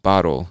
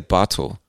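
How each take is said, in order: First: The middle consonant sounds like a soft D. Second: The middle consonant is a clear T. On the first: This is how many speakers in the US say it. "It sounds like a D" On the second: Listeners may notice the speaker is not from the US. "But you can say bottle"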